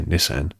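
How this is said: It is said with a British pronunciation. The speaker calls it wrong. "we say Nissan stupidly here because no Japanese person ever would say"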